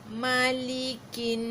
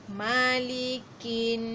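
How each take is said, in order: Both takes have the same delivery.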